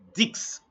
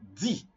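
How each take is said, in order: First: The word ends with a clear final consonant. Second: The word ends on the vowel, no consonant. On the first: The number is said on its own. "when you are talking about ten, you will say dix" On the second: The number is used inside a sentence. "when ten is in a sentence, you will not say dix, you will say d"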